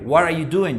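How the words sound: The voice falls at the end.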